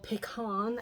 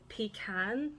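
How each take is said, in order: First: The word is said in an American way. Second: The word is said in a non-American way.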